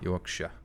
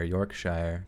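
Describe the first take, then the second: First: The last syllable is reduced and short. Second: The last syllable is a full 'shire'. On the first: This is how locals say it. "it's like this weird Yorkshire" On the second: This is how Americans say it. "I wish it was Shire, Yorkshire, because I think that's how we say it in the the good old United States"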